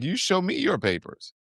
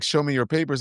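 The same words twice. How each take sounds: First: Higher-pitched, imitated comeback; defiant retort. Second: Lightly voiced agent demanding papers; plain, matter-of-fact demand, lightly imitated; confronting agents' demand. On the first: Uber driver throwing the agents' demand back, defiant imitation. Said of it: "He's like". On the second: ICE agents confronting an Uber driver, lightly mimicked demand. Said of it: "they're like".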